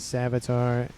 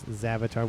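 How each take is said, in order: First: The name begins with an S sound. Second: The name begins with a Z sound. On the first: The speaker calls it wrong. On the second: The speaker calls it right.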